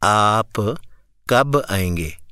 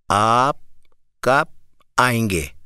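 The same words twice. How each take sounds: First: The b of 'kab' bounces with a short echo. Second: The b of 'kab' is held without an echo. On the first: "یہ قلقلہ ہے" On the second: "اب میں قلقلہ نہیں کروں گا"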